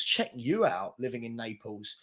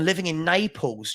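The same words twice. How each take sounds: First: Much softer, half to himself; quiet impressed aside. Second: Said in the usual way. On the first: Real, not acted. Streamer quietly impressed by a viewer living in Naples, soft murmur. Check you out.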